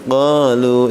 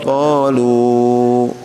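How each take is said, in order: First: The final vowel is held briefly. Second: The final vowel is drawn out long. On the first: The speaker calls it right. "segitu aja" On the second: The speaker calls it wrong. "jangan qalu ya"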